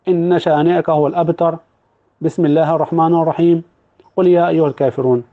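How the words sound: It is broken by pauses between the phrases. The basmala is separated from the surrounding verses. "ولا هيبدأ يقطع"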